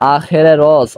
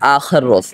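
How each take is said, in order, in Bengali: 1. একটি 'e' স্বরধ্বনি দুটি শব্দকে যুক্ত করে। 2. দুটি শব্দ কোনো সংযোগকারী স্বরধ্বনি ছাড়াই যুক্ত। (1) "তাহলে উচ্চারণ করতে হবে এরকম" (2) "আমরা যদি বলি আখর রোজ তাহলে অনুবাদ করাটা ভুল হয়"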